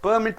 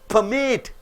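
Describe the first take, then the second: First: The stress is on the first syllable. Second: The stress is on the second syllable. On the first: It names a license. "Permit means what? License. It is a noun" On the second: It means to allow. "it is a verb"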